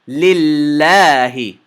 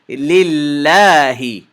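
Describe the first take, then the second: The two takes are said the same way.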